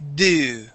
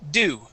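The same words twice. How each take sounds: First: The vowel is pushed hard and driven down. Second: The vowel is said quickly and lightly. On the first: The speaker calls it wrong. "you're really kind of pushing into that ooh and and driving it down" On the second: The speaker calls it right. "It's very light"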